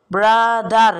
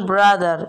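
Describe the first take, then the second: First: brother said louder, split into its two beats; brother, louder, one beat per syllable; syllables counted out. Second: Said in the usual way. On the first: Shown as a demonstration. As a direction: tap out each syllable of brother. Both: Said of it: "দুইবার, তাহলে ডাইসিলেবল".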